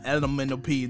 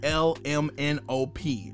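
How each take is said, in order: First: The letters run together into one word. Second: Each letter is said separately and clearly. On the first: The speaker calls it wrong. "not LMNOP. Don't blend the words" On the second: The speaker calls it right. "You gotta say it like LMNOP"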